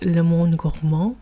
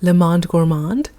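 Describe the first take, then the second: First: The name is said with French pronunciation. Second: The name is said with American pronunciation.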